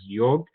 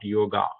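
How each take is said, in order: First: The final vowel is short and barely audible. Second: The final vowel is long and clearly audible. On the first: The speaker calls it right. "the correct pronunciation of this word is yog" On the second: The speaker calls it wrong. "You're elongating that A sound"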